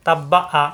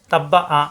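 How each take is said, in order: Both takes have the same delivery.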